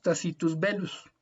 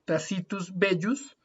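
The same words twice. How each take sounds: First: "Belus" with a clear single L; correct Latin. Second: "Bellus" with the double L as a Spanish Y; the common mistaken reading of "Bellus"; wrong pronunciation. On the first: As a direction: say "Belus" with a plain L sound. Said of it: "la vamos a pronunciar como una L". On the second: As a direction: Bellus read Spanish-style. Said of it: "en vez de decir Tacitus Bellus". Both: Shown as a demonstration.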